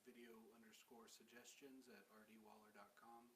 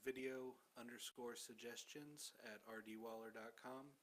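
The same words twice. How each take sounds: First: It is said at a fast pace. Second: It is said at a slower pace.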